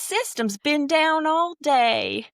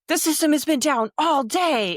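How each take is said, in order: First: It is read in a Southern drawl. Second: It is read in a plain, neutral accent. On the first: The message loses its aggressive edge. "read all of the trouble tickets ... with a southern draw" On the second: The writer seems to be yelling aggressively. "you may read that as if, like"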